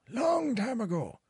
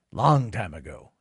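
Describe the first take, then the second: First: High, drawn-out reminiscing voice; wistful mock old-timer. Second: Said in the usual way. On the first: Streamer mock-reminisces about his casino days in a lightly voiced old-timer tone. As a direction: stretch it like an old storyteller. Repeats phrase in old-man voice.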